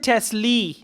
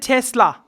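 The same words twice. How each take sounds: First: The word ends with an 'ee' vowel. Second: The word ends with an 'ah' vowel. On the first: The speaker calls it wrong. "He didn't say Tesla" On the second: The speaker calls it right. "He said Tesla. La. A"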